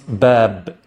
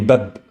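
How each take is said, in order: First: The vowel is held long. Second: The vowel is short and clipped. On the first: "the alif is a long, elongated, a long vowel sound" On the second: "if I rely only on the haraka"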